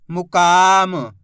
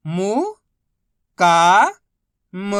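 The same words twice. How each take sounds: First: मुकाम joined slowly, का stretched loud; blended word. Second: मु, का, म apart, का loud and long; syllable by syllable. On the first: Teacher modelling reading, मुकाम said slowly whole. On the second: Teacher modelling reading, मु, का, म sounded out separately. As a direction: sound out मु... का... म with pauses. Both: Shown as a demonstration. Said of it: "बस इसी तरीके से".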